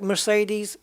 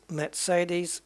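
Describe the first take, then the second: First: Mercedes as mer-SAY-deez; usual English way. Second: Mercedes with ts, mairt-SAY-deez; German way. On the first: Gamer comparing both ways, Mercedes as mer-SAY-deez. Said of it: "it's so far out". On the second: Gamer comparing both ways, Mercedes with ts. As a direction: say Mercedes with ts in the middle. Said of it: "it's there or thereabouts". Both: Shown as a demonstration.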